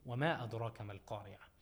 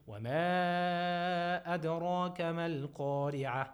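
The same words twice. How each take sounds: First: "وما أدراك ما القارعة" with the long vowels cut short, rushed; wrong madd length. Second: "وما أدراك ما القارعة" chanted with long vowels held for four counts; correct madd. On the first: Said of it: "it's not correct to say". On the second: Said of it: "but you say". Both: Shown as a demonstration.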